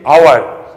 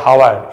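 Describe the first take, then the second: First: The word begins directly with a vowel sound. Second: The word begins with an audible h sound. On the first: The speaker calls it right. "you are saying hour" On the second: The speaker calls it wrong. "you are saying not hour"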